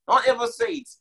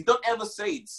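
First: Much higher, insistent repeat of the warning; a sudden high cry of warning; high emphatic warning. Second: Said in the usual way. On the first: Acted. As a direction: jump way up in pitch to drive the warning home.

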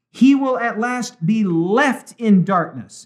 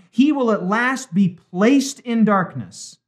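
First: Slow reading with "left" punched; stress on LEFT. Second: Slow contrast reading with "placed" stressed. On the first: Host reads out the key line, stressing "left". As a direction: lean hard on the word "left". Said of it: "Underline the word left". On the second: Host gives what the author doesn't say, stressing "placed". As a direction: stretch and stress "placed" as the wrong word. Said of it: "She doesn't say". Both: Acted.

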